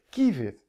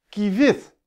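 First: The stress is on the first syllable. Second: The stress is on the last syllable. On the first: The speaker calls it right. "ik zeg kievit" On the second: The speaker calls it wrong. "of zeg ik kievit? Nee"

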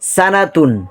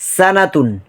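Both takes have the same delivery.

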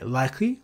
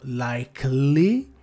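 First: The middle E and L almost disappear. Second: The middle L is pronounced strongly. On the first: The speaker calls it right. "la E e la L ... fondamentalmente spariscono" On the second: The speaker calls it wrong. "non viene pronunciato likely con quella L in maniera forte"

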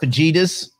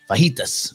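First: The j is said as a hard j sound. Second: The j is said as a breathy h sound. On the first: The speaker calls it wrong. "It's not fajitas" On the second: The speaker calls it right. "I don't pronounce the J"

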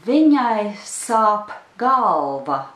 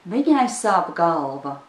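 First: The sentence is spoken slowly and carefully. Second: The sentence is spoken quickly at natural speed. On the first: "I'll pronounce it one more time" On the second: "in the pace that's normal for a native Latvian speaker"

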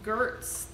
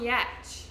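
First: The name begins with a hard G sound. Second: The name begins with a Y sound. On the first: The speaker calls it wrong. "I was assuming it was Gertz this whole time" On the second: The speaker calls it right. "I think that's how you pronounce her last name"

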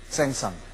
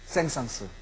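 First: The name ends without a final s sound. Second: The name ends with a final s sound. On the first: The speaker calls it wrong. "우리는 오래전에 생상이라고 불렀습니다" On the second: The speaker calls it right. "생상스가 맞습니다"

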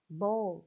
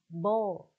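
First: It is said with a British accent. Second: It is said with a British accent.

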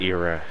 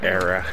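First: The first vowel sounds like 'ear'. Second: The first vowel sounds like 'air'. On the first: The speaker calls it wrong. "It doesn't start with an ear" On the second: The speaker calls it right. "It starts with an air"

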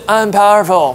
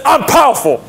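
First: It is said weakly, without conviction. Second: It is said firmly, with full conviction. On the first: The speaker calls it wrong. "不是I'm powerful" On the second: The speaker calls it right. "是I'm powerful"

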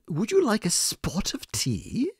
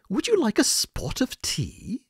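First: It is said in an imitated British accent. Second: The same.

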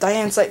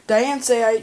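First: The name is said in a shorter, clipped form. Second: The name is said in a longer, fuller form. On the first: The speaker calls it right. "makes more sense, but does cut off a bit of the name" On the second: The speaker calls it wrong. "just kind of sounds weird"

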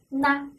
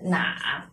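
First: The word is said in the neutral tone. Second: The word carries a full tone. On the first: This is the reading used in this text. "我们在这块读的是那，轻声" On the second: This is the everyday reading of the character. "我们平常呢是什么呀？读的是哪"

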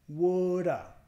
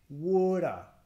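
Both takes have the same delivery.

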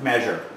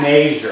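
First: The first vowel sounds like 'meh'. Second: The first vowel sounds like 'may'.

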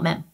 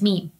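First: The vowel is short, not rhyming with gene. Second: The vowel is long, rhyming with gene. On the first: The speaker calls it wrong. "not mem" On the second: The speaker calls it right. "It's meme like gene"

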